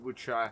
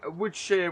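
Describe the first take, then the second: First: The name is said with an American pronunciation. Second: The name is said with a British pronunciation. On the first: "this being an American map, it could very much be New Woodshire" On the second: "being from the U K, Woodshire would be how I'd pronounce it"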